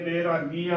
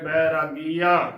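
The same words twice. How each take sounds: First: The first vowel is a thin 'e' sound. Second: The first vowel is a full 'ai' sound. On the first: The speaker calls it wrong. "ਬੈਰਾਗੀਆ ਉਚਾਰਨ ਨਹੀਂ ਕਰਨਾ" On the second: The speaker calls it right. "ਭਰ ਕੇ ਬੋਲਣਾ ਹੈ"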